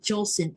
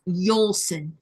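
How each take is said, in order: First: The name begins with a J sound. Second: The name begins with a Y sound. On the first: The speaker calls it wrong. "that's not Jolson" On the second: The speaker calls it right. "it's Yolson"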